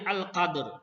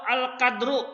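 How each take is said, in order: First: The word ends on a consonant without vowel. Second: The word ends with a short final vowel. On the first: "ini dimatikan menjadi" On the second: "ini hidup akhirnya"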